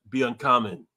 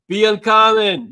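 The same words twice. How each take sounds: First: Said in the usual way. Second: Slow, loud rallying cry; shouted motto. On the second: Real, not acted. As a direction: belt out the motto slowly.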